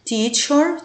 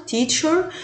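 First: "تيتشر" with a raised, clear tch; teacher word demo. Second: "تيتشر" again, higher, tch clear; repeated teacher word. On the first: Teacher modelling "تيتشر" for pupils, raised and crisp. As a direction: lift "تيتشر" up and sound the tch cleanly. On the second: Teacher repeating "تيتشر" for the class, high and clear. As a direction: say "تيتشر" once more, higher, with a crisp tch. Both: Shown as a demonstration. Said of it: "يتنطق تش زي تشير".

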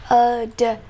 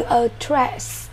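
First: "Address" broken apart, sound by sound; teacher's drawn-out "Address" for pupils. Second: Said in the usual way. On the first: Shown as a demonstration. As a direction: separate the two syllables of "Address".

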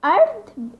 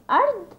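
First: أرض spelled out slowly, high and loud, as a teaching example; أرض read aloud as a raised, emphatic model word; careful Coptic reading. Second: أرض repeated high and emphatic as a teaching example; careful Coptic reading. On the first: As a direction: sound out أرض clearly for the class, pitched up. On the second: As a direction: say أرض again for the class, pitched up. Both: Shown as a demonstration. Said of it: "جيم بيتنطق امتى؟ لو جه بعده حرف متحرك للكسر".

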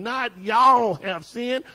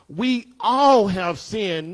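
First: "y'all" stressed as the wrong version. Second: "all" leaned on, slow; stress on all. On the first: Preacher contrasting "y'all" with "all", slow. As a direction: lean on "y'all" to mock it. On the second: Preacher stressing "all" to the congregation, slow. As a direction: hit the word "all", not "y'all". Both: Shown as a demonstration.

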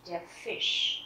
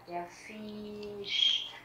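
First: Fisch with a short, quick I. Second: Fisch with the I wrongly drawn out, "Fiiisch"; wrong long I. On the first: Teacher asking learners to listen again, short-I demo. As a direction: keep the I in "Fisch" brief. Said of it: "bởi vì đây là âm Y ngắn". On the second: Teacher showing what never to say, long-I mistake. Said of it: "không bao giờ đọc là". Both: Shown as a demonstration.

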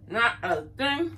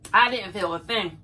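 First: Not a thing drawn out, much slower and deliberate; slow emphasis. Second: Said in the usual way. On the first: Real, not acted. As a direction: stretch out every word of Not a thing to drive it home. Repeats line, second slowed.

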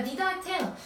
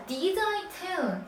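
First: Said in the usual way. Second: Did I tell said very slowly, word by word; slow model reading. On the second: Shown as a demonstration. Teacher slowly reading did I tell to the students, deliberate pace. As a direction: spell out each word of did I tell for the class. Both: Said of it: "자, did I tell?".

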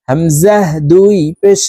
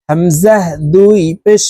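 The two takes are said the same way.

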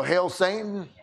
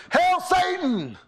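First: Said in the usual way. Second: Mock heckler shout. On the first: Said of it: "what did he say, Dale?". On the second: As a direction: bellow it across the cabin to mock. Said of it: "One guy says".

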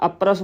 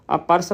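First: ਅਪਰਸ run together as "apras"; wrong joined consonants. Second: ਅਪਰਸ as "a-par-as", P and R apart; separated consonants. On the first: Teacher showing the reading to avoid, ਅਪਰਸ as "apras". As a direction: join P and R in ਅਪਰਸ, "a-pras". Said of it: "ਪਾਠ ਨਹੀਂ ਉਚਾਰਨ ਕਰਨਾ". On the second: Teacher showing the correct reading, ਅਪਰਸ as "apars". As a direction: give ਅਪਰਸ a vowel between P and R. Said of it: "ਅਪਰਸ ਬੁਲਾਉਣਾ". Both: Shown as a demonstration.

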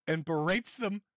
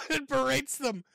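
First: Said in the usual way. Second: Repeated through a burst of laughter, higher; cracking up mid-phrase; laughing. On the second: Real, not acted. Host laughing at Mersh's clip, repeating through laughter.

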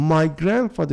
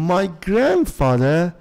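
First: Said in the usual way. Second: Slow model reading. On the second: Shown as a demonstration.

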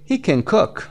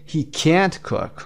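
First: Quick unstressed can, weight on cook; weak can. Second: Slow, can't raised and drawn out; stress on can't. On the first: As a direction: skim over can and hit cook. (can کوتاه، تأکید روی cook) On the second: (can't کشیده و با تأکید) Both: Shown as a demonstration. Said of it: "can you hear the difference".

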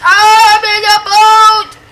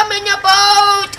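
First: High, loud and slow, stretching every word; slow drawn-out shout. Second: High, loud joyful cry of I'm in a boat; excited shout. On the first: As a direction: belt it out long and slow, thrilled. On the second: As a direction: shout it out, thrilled. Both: Real, not acted. Repeats line, second drawn out.

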